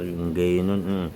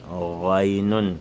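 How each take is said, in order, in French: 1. Il commence par un son ng. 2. Il commence par un son de gorge. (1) "on dit pas ngaynun" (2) "à l'entrée de la gorge"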